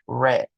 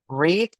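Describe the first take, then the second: First: The vowel is short, like in 'red'. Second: The vowel is long, like in 'reed'. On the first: It is the past tense. "en pasado se pronuncia read" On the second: It is the present tense. "se pronuncia en presente read"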